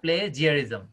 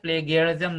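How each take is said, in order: First: The second consonant is a j sound. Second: The second consonant is a hard g sound. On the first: The speaker calls it right. "তাহলে এটা হচ্ছে প্লেজিয়ারিজম" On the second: The speaker calls it wrong. "প্লেগিয়ারিজম না"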